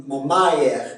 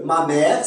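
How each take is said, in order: First: "ma mère" as ma ma-ère; Québécois diphthong. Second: Said in the usual way. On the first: Shown as a demonstration. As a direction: glide "mère" into ah-eh in "ma mère". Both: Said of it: "c'est A E".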